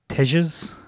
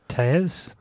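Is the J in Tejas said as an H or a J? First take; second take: J; H. First: The J is said as a J sound. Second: The J is said as an H sound. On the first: The speaker calls it wrong. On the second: The speaker calls it right.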